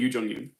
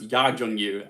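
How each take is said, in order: First: The first syllable is said like 'yu'. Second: The first syllable is said like 'ya'. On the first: The speaker calls it wrong. "I've been saying Yu Jung Yoon" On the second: The speaker calls it right. "it's pronounced Ya Jung Yoon"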